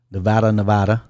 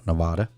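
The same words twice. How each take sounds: First: Said in the usual way. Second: "Nevada" said neh-VAH-da, with a long ah in the middle; Nevada with broad a. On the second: Shown as a demonstration. Host to viewers, trying "Nevada" as neh-VAH-da. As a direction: give "Nevada" the open ah of father in its middle syllable. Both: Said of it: "Or Nevada".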